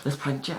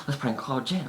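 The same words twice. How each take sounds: First: "Let's prank Jen" with the words run together and slurred. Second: Said in the usual way. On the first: Real, not acted. Planning a prank call, "Let's prank Jen" slurred together. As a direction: blur "prank Jen" into one slurred lump. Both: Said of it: "I just slurred my words there".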